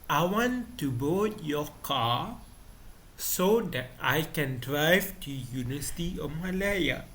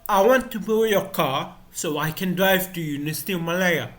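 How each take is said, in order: First: The sentence is spoken slowly. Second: The sentence is spoken fast.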